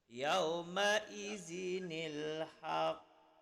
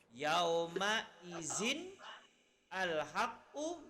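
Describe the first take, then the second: First: Izin joins haqq through a linking nil sound. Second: Izin and al-haqqu are said separately, without linking.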